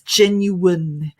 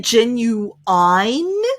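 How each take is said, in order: First: It uses the international pronunciation. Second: It uses a variant pronunciation some speakers use. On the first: "international pronunciation. So it's genuine" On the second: "Some people say genuine"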